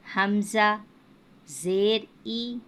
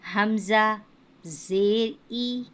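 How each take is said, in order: The two takes are said the same way.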